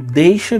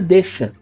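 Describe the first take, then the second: First: The vowel is a full diphthong 'ei'. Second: The vowel is a single plain 'e'. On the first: This is the form as written. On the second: This is the form in everyday speech.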